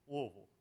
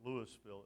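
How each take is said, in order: First: The name is mumbled and compressed, thick-tongued. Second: The name is said with every syllable clearly pronounced. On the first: A native of the city says it this way. The speaker calls it right. "If it sounds like you got a rock in the middle of your tongue, it's you're saying it right" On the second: A non-native of the city says it this way. The speaker calls it wrong. "not Louisville or Louisville"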